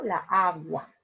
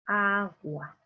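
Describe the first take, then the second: First: "La agua" said as a clash of two "a" sounds, deliberately awkward; teacher models the mistake; wrong form shown. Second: "el agua" said smoothly, linking "el" into "agua"; teacher models the right form; correct form. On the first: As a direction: demo the wrong "la agua" with the "a a" collision. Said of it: "Aquí se presenta un mal sonido". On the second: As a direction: glide from "el" straight into "agua". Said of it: "lo correcto es decir el". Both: Shown as a demonstration.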